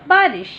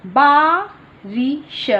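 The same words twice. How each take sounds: First: Said in the usual way. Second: Teacher stretches बारिश for the class; slow model. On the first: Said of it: "normal take". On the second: Shown as a demonstration. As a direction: draw बारिश out very slowly, rising. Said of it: "slow model".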